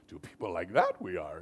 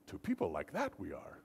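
First: The voice is raised above its normal level. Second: The voice is at its normal level.

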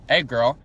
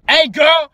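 First: The words are said at a calm, normal volume. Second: The words are said at a loud, forceful volume. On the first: A normal first greeting. "Imagine my tone of voice. When I say" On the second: The greeting is repeated more aggressively, as if in all caps. "I put it all caps"

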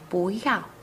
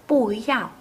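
First: The first syllable has a rising second tone. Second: The first syllable has a falling fourth tone. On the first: "đọc thành búi dạo" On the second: "Từ 不 vốn là thanh 4"

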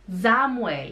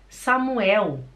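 First: The name begins with a buzzing Z sound. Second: The name begins with a hissing S sound. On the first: The listener understands the name. The speaker calls it right. "Porque o S acompanhado por uma vogal faz som de Z" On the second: The listener does not understand the name. The speaker calls it wrong. "A pessoa fica assim, como? Pode repetir, por favor?"

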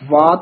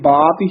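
First: The word begins with a v sound. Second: The word begins with a b sound. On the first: The speaker calls it right. "ਵਾਤ ਵਾਵੇ ਨਾਲ ਬੋਲਣਾ ਹੈ" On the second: The speaker calls it wrong. "ਕਈ ਬਾਤ ਹੀ ਬੋਲ ਜਾਂਦੇ ਨੇ, ਬੱਬਾ ਨਹੀਂ ਹੈਗਾ"

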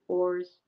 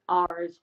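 First: It is said in an Irish accent. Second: It is said in a non-Irish accent.

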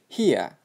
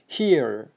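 First: The final r sound is dropped, ending in a vowel. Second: The final r sound is clearly pronounced. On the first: "British Englishda here, here. Ia bo'lib ketyapti" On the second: "Amerikanchada here, here deb r ga urug'i bersa"

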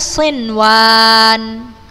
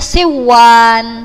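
First: The n is pronounced clearly before the w. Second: The n merges into the w and disappears. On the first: The speaker calls it right. "tapi kita baca sinwan" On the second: The speaker calls it wrong. "enggak kita baca siwan"

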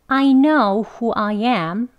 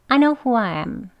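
First: Both I's are stressed and it is slow. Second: Nothing is stressed and every word is weak. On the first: "I 다 그냥 강조 두 개 다 해서 천천히" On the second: "강조하지 않고요 … 쭉 이어서 다 weak 발음으로"

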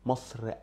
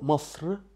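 First: A short vowel is added at the end. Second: The word ends on a consonant. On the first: The word is joined to the next word. "you will add a short eh in the middle" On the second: The word stands on its own. "doesn't have eh at the end"

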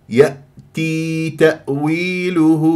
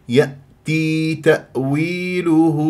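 The two takes are said the same way.

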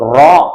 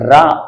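First: The r sound is heavy, lips rounded. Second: The r sound is light, lips not rounded. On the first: "வாயை நல்லா போட்டாவா வச்சுக்கிட்டு நல்லா மொத்தமா அந்த ராவை உச்சரிக்கணும்" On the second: "நம்ம நார்மலா சொல்றத கவனிங்க"

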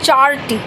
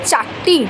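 First: An r sound is heard before the t. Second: The t is doubled with no r sound. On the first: The speaker calls it wrong. "আমরা বলছি না চারটি" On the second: The speaker calls it right. "হ্যাঁ হচ্ছে চারটি, টয় টয় হয়ে যাচ্ছে"

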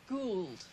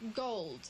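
First: The vowel is changed to the drawled sound. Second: The word has its plain, standard vowel. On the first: This is the affected private-language version. "they said gould" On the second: This is how most people said it. "instead of saying gold"

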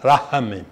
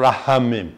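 The two takes are said the same way.

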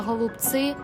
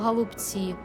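First: The word is said with a foreign accent. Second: The word is said without a foreign accent. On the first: This is how someone else says it. The speaker calls it wrong. "Вона каже «голубці» з акцентом" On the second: This is the form used to correct someone. The speaker calls it right. "а я їй кажу «голубці»"

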